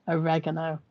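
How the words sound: It is said with an American pronunciation. "which in your country you call oregano for some weird reason"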